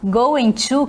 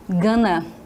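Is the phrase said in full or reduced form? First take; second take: full; reduced. First: Both words are said fully and separately. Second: The words are reduced and run together. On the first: "a palavra going to" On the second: "Vira gonna"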